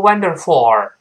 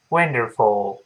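First: "wonderful" wrongly ending in a heavy "for"; loud bad example, "wonderful" as "wander-FOR"; mispronunciation demo. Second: Low, measured model of "wonderful"; correct pronunciation demo. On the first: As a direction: overdo the last syllable of "wonderful" into "for". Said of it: "不要读wonderful，不对". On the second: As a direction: end "wonderful" lightly on "fo". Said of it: "不要读wonderful". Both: Shown as a demonstration.

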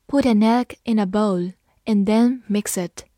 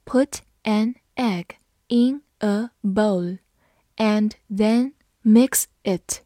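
First: Said in the usual way. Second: Slow, deliberate read-aloud; slow classroom model reading. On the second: Shown as a demonstration. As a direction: pause between phrases, stretch each word. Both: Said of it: "好，慢读一遍。".

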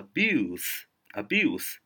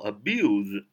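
First: "abuse" ending in a voiceless s; "abuse" pronounced uh-BYOOSS; noun abuse with s. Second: "abuse" ending in a voiced z; "abuse" pronounced uh-BYOOZ; verb abuse with z. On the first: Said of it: "一个s啊". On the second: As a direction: say "abuse" as a verb, buzzing z at the end. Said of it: "一个z". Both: Shown as a demonstration.

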